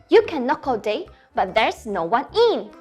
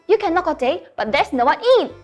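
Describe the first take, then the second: First: It is recited at a fast pace. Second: It is recited at a very fast pace.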